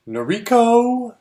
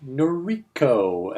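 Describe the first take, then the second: First: Long, drawn-out call, higher and louder; slow, high announcer call of the name. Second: Slow questioning repeat of the name; drawn-out repeat. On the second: Repeating the name, waiting for reply. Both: Retold or imitated.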